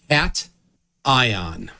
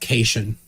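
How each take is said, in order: First: The first syllable sounds like the word cat. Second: The first syllable does not sound like cat. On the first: The speaker calls it right. "Sodium is the main cat ion" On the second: The speaker calls it wrong. "It is not cation"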